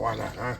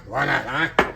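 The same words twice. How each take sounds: First: Said in the usual way. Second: Said again with more punch, rising; louder playful repeat. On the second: Real, not acted. Cook hyping his plate to viewers, louder playful repeat. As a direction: push it out a bit louder the second time.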